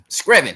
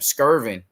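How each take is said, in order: First: The name is said like Screven. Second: The name is said like Skirvin. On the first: This is the corrected local pronunciation. The speaker calls it right. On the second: This is the speaker's own habitual way of saying it. The speaker calls it wrong.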